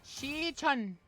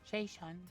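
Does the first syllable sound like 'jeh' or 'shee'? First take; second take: shee; jeh. First: The first syllable sounds like 'shee'. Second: The first syllable sounds like 'jeh'. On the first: The speaker calls it right. "It's Shi-chun" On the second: The speaker calls it wrong. "I was saying Jae-chun"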